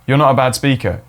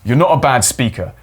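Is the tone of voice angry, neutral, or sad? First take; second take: neutral; angry. First: It is said in a flat, neutral tone. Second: It is said in an angry tone. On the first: "very neutral voice ... That's a vanilla one" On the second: "You try an angry one"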